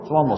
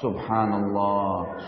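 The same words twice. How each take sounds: First: It is said hurriedly and mumbled. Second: It is said slowly and carefully.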